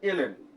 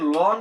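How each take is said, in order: First: It is said as two letters, el-en. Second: It is said as one syllable, lon. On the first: The speaker calls it right. "এটা হচ্ছে এলএন" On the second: The speaker calls it wrong. "এটাকে লন বলতে পারবো না"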